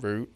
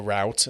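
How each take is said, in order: First: Said in the usual way. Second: "route" said to rhyme with "out"; American pronunciation. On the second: Shown as a demonstration. Co-host offers the American version of the word, "route" pronounced "rowt". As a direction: say "route" with an OW vowel, like "rout". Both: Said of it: "as they say in America".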